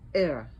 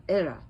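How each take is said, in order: No difference in how they are said.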